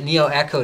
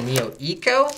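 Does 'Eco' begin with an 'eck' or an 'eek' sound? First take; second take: eck; eek. First: Eco begins with a short 'eh' sound. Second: Eco begins with a long 'ee' sound. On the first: The name refers to being economical. "everyone from Antec keeps calling it Neo Echo" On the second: The name refers to ecology. "I would normally call it a Neo Eco because to me, that's what that word means"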